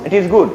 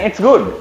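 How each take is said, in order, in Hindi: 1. इसे पूरा 'it is good' बोला जाता है। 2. इसे छोटा करके 'it's good' बोला जाता है।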